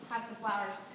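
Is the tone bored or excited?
bored. It is said in a bored, flat tone.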